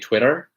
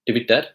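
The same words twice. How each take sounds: First: It is said in an American accent. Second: It is said in an Indian accent. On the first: "In the American accent" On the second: "In the Indian accent"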